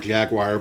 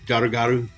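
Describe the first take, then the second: First: The name is said like the English word jaguar. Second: The name is said with Japanese-style syllables, garuga. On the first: The speaker calls it wrong. "I keep calling him Jaguar because that's how his name is spelled" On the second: The speaker calls it right. "it's more uh, Garugaru"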